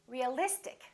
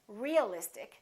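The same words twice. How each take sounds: First: The stress falls on the syllable before -ic. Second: The stress falls away from the syllable before -ic. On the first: The speaker calls it right. "we stress the syllable immediately before the suffix" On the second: The speaker calls it wrong. "We don't say realistic"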